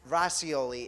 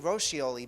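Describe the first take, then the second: First: The name is said in an English-style way. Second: The name is said in an Italian-style way. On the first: This is how the name's owner says it. "is how she pronounces it" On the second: This is how a favorite Italian restaurant is named. "I say Roscioli because that's the restaurant in Italy"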